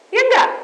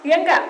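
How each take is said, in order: First: Ya enggak pitched higher and louder, falling at the end; emphatic repeat. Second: Ya enggak with a rising tune, asking; rising question tag. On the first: Preacher repeats the question to the church, emphatic fall. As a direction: hammer Ya enggak down as a demand. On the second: Preacher asks the church, rising tune. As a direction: lift the end of ya enggak like a real question. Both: Acted.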